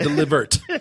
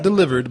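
First: The word is said in an imitated character voice. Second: The word is said in a plain, ordinary voice. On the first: The speaker calls it right. "In the words of Madea" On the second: The speaker calls it wrong. "Not delivered"

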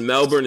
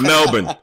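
First: It is said with an American pronunciation. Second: It is said with an Australian pronunciation. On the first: The speaker calls it wrong. "The way we pronounce it, Melbourne is not good" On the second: The speaker calls it right. "But it's Melbourne"

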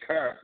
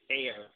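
First: The vowel sounds like the one in 'fur'. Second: The vowel sounds like the one in 'air'. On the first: This is how people from the city talk. "you say cur" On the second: This is not how people from the city talk. "You don't say care"

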